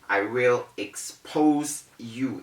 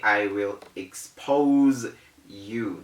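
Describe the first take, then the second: First: The S in expose is a hissing s. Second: The S in expose is a buzzing z. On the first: The speaker calls it wrong. "is wrong" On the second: The speaker calls it right. "We say ... That Z sound"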